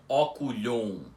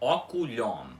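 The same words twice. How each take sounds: First: The O before the M is nasalized. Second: The O is open and the M is fully pronounced. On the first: The speaker calls it wrong. "com esse O nasal antes do M" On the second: The speaker calls it right. "a pronúncia correta da, da palavra é oculhom"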